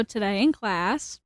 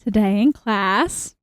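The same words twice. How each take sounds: First: Softer, held back from the microphone; slightly distant, softer delivery; too far from mic. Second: Slower retake, right up on the microphone; close-miked, unhurried restart; closer to mic. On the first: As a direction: speak from a little way off the mic. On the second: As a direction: lean into the mic and slow down. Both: Real, not acted. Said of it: "Nope, closer".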